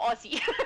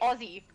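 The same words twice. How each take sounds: First: It is pronounced a non-Australian way. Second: It is pronounced the Australian way. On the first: The speaker calls it wrong. "not Aussie" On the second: The speaker calls it right. "if you're Australian, you say Aussie"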